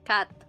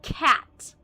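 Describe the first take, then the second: First: It is said in a Filipino accent. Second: It is said in an enunciated American accent. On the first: "Usually in a Filipino accent, a cat is cat" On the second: "she'd really pronounce it like cat"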